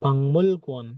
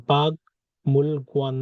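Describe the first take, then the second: First: "পাংমুল গুয়ান" with ng before m; nasalised pronunciation. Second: "বাগ মুল গুয়ান" with a hard g before m; unchanged pronunciation. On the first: Teacher answering with the changed sound, nasalised pronunciation. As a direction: join "পাংমুল" with a held ng. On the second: Teacher quizzing learners on the written form, unchanged pronunciation. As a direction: separate "বাগ" from "মুল", stopping on g. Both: Shown as a demonstration. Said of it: "না হয়ে কি হবে".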